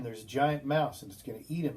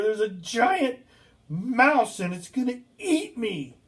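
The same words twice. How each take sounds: First: Said in the usual way. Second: High, loud, terrified shouting; retold panicked yell. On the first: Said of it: "And he tells me again". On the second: Patient yells to the nurse about the giant mouse in a panic. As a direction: cry out as if a monster is coming. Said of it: "and he yells".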